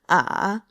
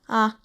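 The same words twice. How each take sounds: First: The pitch dips low then comes up. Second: The pitch is short, light and unmarked. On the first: "Third tone" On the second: "that fifth tone I talked about"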